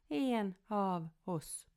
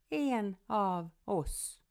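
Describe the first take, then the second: Both takes have the same delivery.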